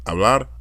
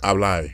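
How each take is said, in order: First: Said in the usual way. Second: "hablar" ending in "ai" for "ar". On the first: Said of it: "instead of saying R". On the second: Shown as a demonstration. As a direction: turn the last r of "hablar" into i. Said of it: "they say I".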